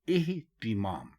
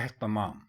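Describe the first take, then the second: First: It begins with 'i' and has 'i' after the t. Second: It begins with 'e' and has 'a' after the t. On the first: The speaker calls it right. "अलिफ के नीचे भी ज़ेर है और ते के नीचे भी ज़ेर है" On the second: The speaker calls it wrong. "अलिफ के ऊपर भी ज़बर लगा देते हैं और ते के ऊपर भी ज़बर"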